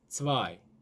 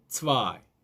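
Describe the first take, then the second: First: It starts with a 'ts' between tense and aspirated. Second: The same.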